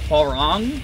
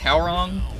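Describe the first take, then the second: First: The first syllable sounds like 'hwa'. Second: The first syllable sounds like 'how'. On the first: This is how it should probably be said. "we should probably be pronouncing it Hwarong" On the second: This is how the speaker has always said it. "I think I've always said it as Howrong"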